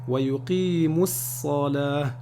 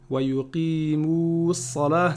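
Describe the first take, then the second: First: The vowel before 'salah' is kept short. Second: The vowel before 'salah' is held long. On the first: The speaker calls it right. "la prolongation disparaît en liaison" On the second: The speaker calls it wrong. "c'est pas bon"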